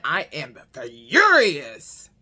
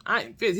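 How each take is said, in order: First: "I am furious" drawn out slow and low; slow seething. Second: Said in the usual way. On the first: Shown as a demonstration. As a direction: grind out "furious" slowly, boiling inside. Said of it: "on the inside, I am furious". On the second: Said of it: "on the inside".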